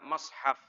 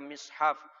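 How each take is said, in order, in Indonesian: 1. Vokal pertama terdengar seperti 'a'. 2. Vokal pertama terdengar seperti 'i'. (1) "ada yang membaca mashaf" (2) "ada yang membaca mishaf"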